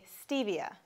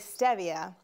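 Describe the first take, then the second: First: It is said the American way. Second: It is said the European way.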